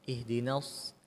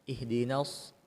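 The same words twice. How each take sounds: The two takes are said the same way.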